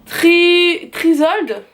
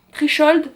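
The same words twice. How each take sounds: First: French speaker trying an English accent; hesitant attempt at an English accent, first syllable held; self-mocking "super" English accent with an s in Trisold; put-on English accent. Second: English accent with a sh sound in Trichold; second try at an English accent; unsure, self-mocking English accent; put-on English accent. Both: Shown as a demonstration. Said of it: "attention mon super accent anglais".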